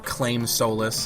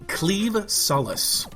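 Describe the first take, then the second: First: The first word rhymes with name. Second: The first word rhymes with leave. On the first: The speaker calls it wrong. "That's what I've heard a lot of people calling it" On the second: The speaker calls it right. "is actually pronounced cleave"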